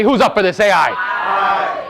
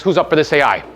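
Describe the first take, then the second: First: Louder hype call. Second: Said in the usual way. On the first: Real, not acted. Speaker rallies the audience for a louder answer, shouting. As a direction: pump up the crowd, louder. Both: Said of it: "I'm sorry, this is like a million dollars".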